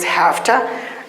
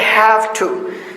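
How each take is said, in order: First: Have ends with a voiceless f sound. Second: Have ends with a voiced v sound.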